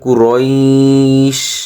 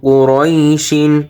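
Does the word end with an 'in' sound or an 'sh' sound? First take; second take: sh; in. First: The word ends on the 'sh' sound. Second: The word ends with a final 'in' sound. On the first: The reciter stops at this word. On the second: The reciter continues without stopping.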